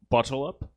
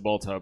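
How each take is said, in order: First: It is pronounced as two words, bottle up. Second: It is pronounced as one word, boltub. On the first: "I'm more familiar with the pronunciation of bottle up" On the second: "I know you pronounce it Boltub"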